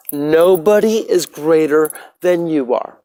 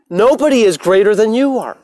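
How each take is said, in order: First: Slow, settled repeat. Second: Higher, forceful declaration; emphatic proclamation. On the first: Telling viewers nobody is above them, slow and settled. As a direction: let it sink in slowly. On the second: Telling viewers nobody is above them, a forceful proclamation. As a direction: proclaim it to the whole crowd. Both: Real, not acted.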